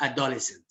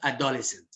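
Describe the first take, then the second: First: It is pronounced the way non-native speakers say it. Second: It is pronounced the way non-native speakers say it.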